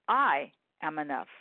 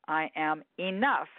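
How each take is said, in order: First: The stress falls on the word I. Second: The stress falls on the word enough.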